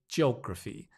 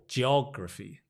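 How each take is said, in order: First: It is said with a British English accent. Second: It is said with an American accent and R. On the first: "In British English, we say geography" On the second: "With American pronunciation, it's more geography"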